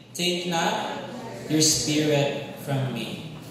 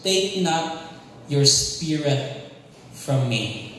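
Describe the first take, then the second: First: Said in the usual way. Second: Slow, weighty, each word leaned on; slow emphatic declaration. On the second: Shown as a demonstration. Preacher to congregation, slow emphatic key verse. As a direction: pronounce it slowly like a key verse. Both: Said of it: "Everybody say".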